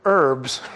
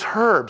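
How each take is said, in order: First: The word starts without an h sound. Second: The word starts with an h sound. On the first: "I pronounce it herbs" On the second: "No, it's herbs. There's an H"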